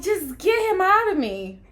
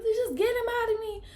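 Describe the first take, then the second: First: Loud, high, strained yell; desperate hollered demand, pitched way up; retold scream. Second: Very high, strained voice at normal volume; imitating a desperate labor plea; retold strained plea. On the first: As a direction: imitate yourself screaming in labor. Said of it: "And I'm screaming, and I'm like". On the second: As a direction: squeeze it out high, holding back the yell. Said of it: "I said".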